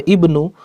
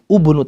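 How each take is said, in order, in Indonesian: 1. Kata ini dimulai dengan vokal i. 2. Kata ini dimulai dengan vokal u. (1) "maka dibaca ibnu" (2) "bukan ubnu"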